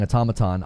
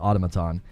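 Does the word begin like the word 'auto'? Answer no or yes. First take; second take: no; yes. First: The start is not said like 'auto'. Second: The start is said like the word 'auto'. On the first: The speaker calls it right. "instead of saying automaton" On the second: The speaker calls it wrong. "I always wanted to say automaton"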